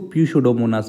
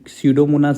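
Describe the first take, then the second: First: The word starts with a P sound. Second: The word starts without a P sound. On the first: "जो कि पी को silent इसमें नहीं करते हैं" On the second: "silent स्यूडोमोनास"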